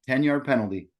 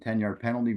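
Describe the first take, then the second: First: Each word is crisply separated and clearly enunciated. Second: The words run together in a relaxed, conversational flow. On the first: It sounds more authoritative. "Every word's kind of enunciated" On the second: It sounds like chatting with the listener. "he has a free flow, like he's talking on a conversation with you"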